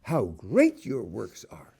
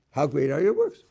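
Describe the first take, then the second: First: Slow, falling exclamation with great stressed; How great your works are said slowly in awe. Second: Rising question tune on works; How great are your works? asked with a rise. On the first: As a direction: marvel at it, leaning on great. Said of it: "An exclamation point". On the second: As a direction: ask it, lifting works at the end. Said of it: "Would sound like you need a question mark". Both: Shown as a demonstration.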